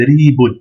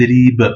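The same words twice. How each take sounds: First: Ri, boun with the un ending said; ending the word on boun; full nunation boun. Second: Ri, b with the last b stopped, no vowel; blocked final b. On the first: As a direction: pausal form not used. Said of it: "Mais il est mieux de dire ted, ri, b". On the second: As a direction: stop on a closed b. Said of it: "On bloque la dernière lettre". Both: Shown as a demonstration.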